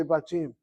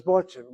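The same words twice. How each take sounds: First: "Batim" with an open "ah" in the first syllable; usual Israeli pronunciation. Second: "Batim" with a rounded "o" in the first syllable; short-kamatz pronunciation. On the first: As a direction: say "Batim" as bah-TEEM. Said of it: "We all say". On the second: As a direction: say "Batim" as baw-TEEM. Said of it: "I know of no Israeli says". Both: Shown as a demonstration.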